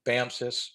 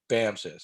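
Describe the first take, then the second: First: The second syllable starts with an s sound. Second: The same.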